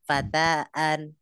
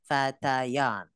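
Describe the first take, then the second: First: The two middle vowels meet with no y sound. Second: A y sound joins the two middle vowels. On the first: The speaker calls it wrong. "Gini yang salah" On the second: The speaker calls it right. "alifnya wajib kita jadikan ya sehingga dibaca jadi fatayan"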